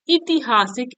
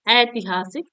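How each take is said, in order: First: ऐतिहासिक said "itihasik", opening on i; wrong form. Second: ऐतिहासिक opening on a full "ai"; correct form. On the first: Teacher showing a sandhi error, wrong opening vowel i. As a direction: start ऐतिहासिक with an i sound. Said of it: "ऐसे नहीं". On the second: Teacher correcting a sandhi error, correct opening ai. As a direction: start ऐतिहासिक with ai, not i. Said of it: "ऐसे लिखा जाता है". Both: Shown as a demonstration.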